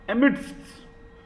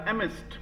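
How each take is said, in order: First: The d sound is clearly pronounced. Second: The d sound is left out. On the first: The speaker calls it wrong. "एमिडस्ट नहीं बोलेंगे" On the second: The speaker calls it right. "इसमें हल्का सा डी silent रहेगा"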